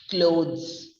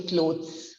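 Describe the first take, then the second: First: "clothes" said ending in a buzzed Z. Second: "clothes" said wrongly with a hard stop before the s; a D or T sound closing "clothes"; hard ending. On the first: Teacher giving the correct clothes, with Z sound. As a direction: turn the final s of "clothes" into z. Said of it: "changes to the sound of the Z". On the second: Teacher showing what we don't say, hard-ended clothes. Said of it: "we don't say clothes". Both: Shown as a demonstration.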